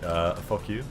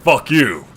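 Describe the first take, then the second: First: It is said quietly and lazily. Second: It is said loudly with emphasis.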